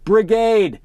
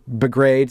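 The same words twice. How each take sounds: First: "Brigade" tried again, slower and deliberate; careful retry. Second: "Brigade" tripped over, consonants jumbled; stumbled word. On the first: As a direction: reach for a cleaner "Brigade". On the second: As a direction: fumble the word "Brigade" as it comes out. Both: Real, not acted. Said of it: "I have such a hard time with that word".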